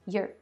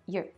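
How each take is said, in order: No difference in how they are said.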